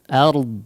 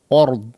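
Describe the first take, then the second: First: The vowel is a light, open a sound. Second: The vowel is a heavy, rounded o sound. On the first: The speaker calls it right. "tapi a, ard ard ya" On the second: The speaker calls it wrong. "jangan ord ord ya, o jadi bunyinya seperti o ya"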